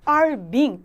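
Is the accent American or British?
American. It is said in an American accent, clearly. "미국은 are being 굉장히 잘 들리죠"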